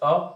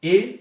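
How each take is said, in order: First: The article is a short, weak 'uh' sound. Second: The article is a full, strong 'ay' sound. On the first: The following noun is not emphasized. "पेन पर कोई भी stress नहीं है ... तो आप बोलते वक्त इस पर अ का यूज करेंगे" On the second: The following noun is emphasized. "बुक पर स्ट्रेस डालना हो ... इसको हम ए पढ़ते हैं"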